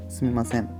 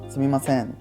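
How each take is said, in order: First: It sounds like an apology to someone. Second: It sounds like calling out to someone.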